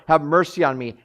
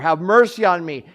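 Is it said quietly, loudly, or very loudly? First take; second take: loudly; very loudly. First: It is said louder. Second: It is said loudest of all.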